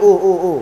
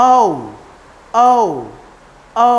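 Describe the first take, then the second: First: ও as a short, pure vowel; plain short ও, three times; mistaken O. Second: ও as a long gliding "oh-oo"; slow, separate, rounded ও; correct English O. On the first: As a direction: repeat ও quickly without any glide. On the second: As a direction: stretch each ও into a diphthong. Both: Shown as a demonstration. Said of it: "this is not ও".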